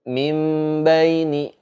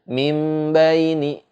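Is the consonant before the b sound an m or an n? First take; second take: m; m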